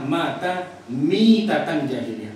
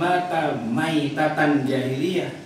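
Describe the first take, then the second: First: The second word begins with the sound 'mi'. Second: The second word begins with the sound 'mai'. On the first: The death resembles a death in the age of ignorance. The speaker calls it right. "tapi yang benar adalah mata mitatan jahiliyah" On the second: The death itself is an unbeliever's death. The speaker calls it wrong. "bukan mata maitatan jahiliyah"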